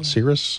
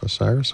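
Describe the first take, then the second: First: The name starts with an 's' sound. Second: The name starts with an 'oh' sound. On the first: The speaker calls it wrong. "It's called the Cirrus-Rex spacecraft" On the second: The speaker calls it right. "I think they pronounce that OSIRIS"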